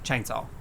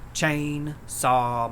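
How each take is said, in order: First: It is run together as one word. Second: It is split into two separate words. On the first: "instead of saying chainsaw" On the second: "they even say it like it's two words"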